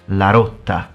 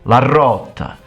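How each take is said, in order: First: The initial R is a light single roll. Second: The initial R is a strong long roll. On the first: "regular person might say" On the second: "But Sicilian says"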